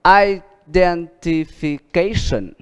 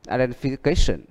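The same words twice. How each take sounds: First: Very slow, each syllable drawn out; slow model reading. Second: Said in the usual way. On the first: Shown as a demonstration. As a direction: pronounce it slowly for students to copy. (đọc rất chậm, kéo dài từng âm tiết) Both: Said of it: "for example".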